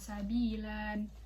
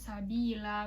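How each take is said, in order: First: It ends with a final n sound. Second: It ends in a long vowel without n. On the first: The speaker calls it wrong. "bukan sabilan" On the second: The speaker calls it right. "dibacanya sabila"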